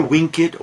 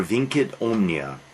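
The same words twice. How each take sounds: First: "vincit" with an initial W sound, like "winkit"; W pronunciation. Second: "vincit" with an initial V sound, like "vinkit"; V pronunciation. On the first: Lecturer showing students the Latin motto, "vincit" said as "winkit". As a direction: open "vincit" on a W, with a hard C. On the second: Lecturer offering the other Latin reading, "vincit" said as "vinkit". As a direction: open "vincit" on a V, keeping the hard C. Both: Shown as a demonstration. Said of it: "Amor vincit or vincit omnia".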